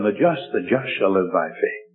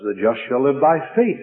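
First: The word "just" carries the main stress. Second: The word "faith" carries the main stress. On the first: The focus is on who is righteous. "he put the emphasis on the just" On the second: The focus is on faith as the means. "he puts the emphasis on the faith"

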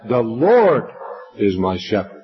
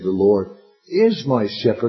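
First: The stress falls on the word Lord. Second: The stress falls on the word is. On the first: The focus is on who the shepherd is. "So in the first one, the Lord is the person" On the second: It is true in the present. "you could put the emphasis on that second little word"

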